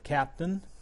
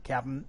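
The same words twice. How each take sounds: First: Every sound of the word is pronounced. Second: A sound or syllable is dropped from the word.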